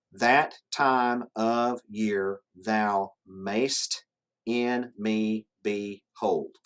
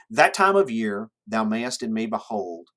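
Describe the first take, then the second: First: Very slow, each syllable set apart. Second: Connected verse reading, lifted at the opening; poem reading. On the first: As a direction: count out the verse one syllable at a time. Counting out the line's ten syllables. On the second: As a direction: read the line as flowing verse for a class. Reads the sonnet aloud to class. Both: Shown as a demonstration.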